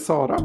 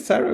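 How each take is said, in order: First: The name is said with a Swedish pronunciation. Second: The name is said without a Swedish pronunciation.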